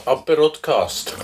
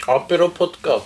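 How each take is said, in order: First: Aperocast said slowly and deliberately; slow self-correction. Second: Said in the usual way. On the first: Shown as a demonstration. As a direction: draw out Aperocast as a new coinage.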